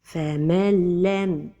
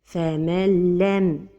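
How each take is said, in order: Both takes have the same delivery.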